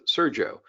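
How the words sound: The name is said with an English pronunciation. "like an English speaking"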